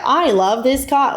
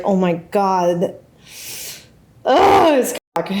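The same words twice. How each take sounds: First: Slow, high, forced enthusiasm; hammed-up stiff gushing; awkward insincerity. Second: Mock ecstatic moaning, stretched out; enthusiastic pleasure. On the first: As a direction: fake it awkwardly, overplaying each word. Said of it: "doing it awkwardly". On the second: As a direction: gush through a hammed-up moan. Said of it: "She's just enthusiastic about it". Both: Shown as a demonstration.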